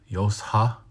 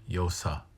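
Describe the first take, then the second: First: An h sound follows the s. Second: No h sound follows the s. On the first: The speaker calls it right. "if you get to the S, then add the H" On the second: The speaker calls it wrong. "if you say it or don't say it"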